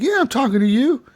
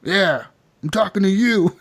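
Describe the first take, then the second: First: Mock challenge. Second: Higher retort breaking into laughter; laughing mock challenge. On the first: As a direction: imitate someone squaring up in a bar. Acted bar quarrel. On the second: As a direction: act the comeback while about to crack up. Acted bar quarrel, through laughter.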